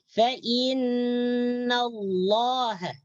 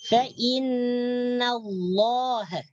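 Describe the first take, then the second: The two takes are said the same way.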